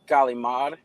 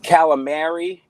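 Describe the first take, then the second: First: The word is clipped, ending in a consonant. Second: The word is said in full, ending in a vowel. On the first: This is the speaker's own way of saying it. "is calimard" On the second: This is the usual way of saying it. "calamari is"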